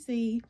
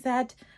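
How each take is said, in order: First: The letter is said the American way, zee. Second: The letter is said the British way, zed.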